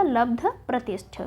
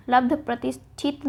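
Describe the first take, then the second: First: प्रतिष्ठ with no final it after लब्ध; correct form. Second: प्रतिष्ठित ending shthit after लब्ध; the mistaken t closing लब्ध प्रतिष्ठित; wrong form. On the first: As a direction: say लब्ध प्रतिष्ठ ending on shth. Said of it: "क्या हो जाएगा". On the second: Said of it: "लब्ध प्रतिष्ठित नहीं होता". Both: Shown as a demonstration.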